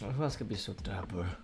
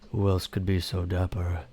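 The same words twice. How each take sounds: First: It is said in the speaker's ordinary voice. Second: It is said in a put-on character voice.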